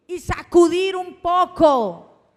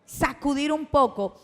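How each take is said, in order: First: Sacudir stressed, louder, higher and slow; forceful shake-up. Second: Said in the usual way. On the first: Shown as a demonstration. Preacher urging the congregation to shake people up, loud and forceful.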